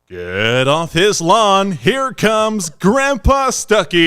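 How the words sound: It is said in a baseball announcer voice.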